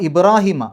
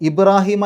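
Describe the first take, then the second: No difference in how they are said.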